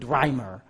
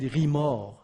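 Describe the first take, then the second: First: The name is said with an American accent. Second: The name is said with a French accent. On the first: "When you pronounce it in American English" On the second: "when you pronounce this in French"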